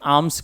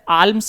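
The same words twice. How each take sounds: First: The L sound is left silent in the word. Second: The L sound is pronounced in the word. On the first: The speaker calls it right. "यहां पर एल silent होता है" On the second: The speaker calls it wrong. "आर्म्स नहीं कहेंगे हम"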